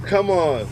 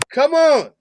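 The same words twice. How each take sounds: First: Said in the usual way. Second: High, louder, falling cry of disbelief; incredulous, high-pitched outburst; exasperated disbelief. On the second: Real, not acted. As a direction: let COME ON leap up in protest. Repeated disbelief at the clip.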